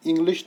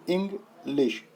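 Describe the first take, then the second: First: Said in the usual way. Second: इंग्लिश broken in two, इंग then लिश; इंग्लिश syllable by syllable, इंग – लिश; split into syllables. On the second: Shown as a demonstration. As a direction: say इंग्लिश slowly with a gap between इंग and लिश. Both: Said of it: "इसमें दो syllables पाए जा रहे हैं".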